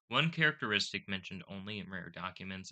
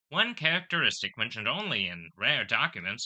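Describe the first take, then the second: First: It is read in the speaker's ordinary voice. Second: It is read in an old-time radio announcer voice.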